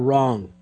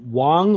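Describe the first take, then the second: First: The word begins with an R sound. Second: The word begins with a W sound. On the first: "or R-O-N-G" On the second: "W-O-N-G, like wong"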